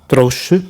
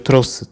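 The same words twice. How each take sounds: First: The x is not said as s. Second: The x is said as s. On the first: The speaker calls it wrong. "people try to read as" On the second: The speaker calls it right. "you read like S"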